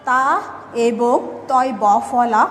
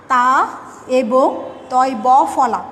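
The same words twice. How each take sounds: The two takes are said the same way.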